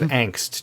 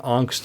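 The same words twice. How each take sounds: First: The word has an English-style pronunciation. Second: The word has a German-style pronunciation.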